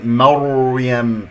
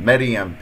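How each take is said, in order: First: The r sound is heavy, with rounded lips. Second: The r sound is light, without lip rounding. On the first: The speaker calls it right. "أكور الشفتين، الراء ساكنة قبلها مفتوح تفخيم" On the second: The speaker calls it wrong. "هنالك من يقول مريم مريم، هذا خطأ"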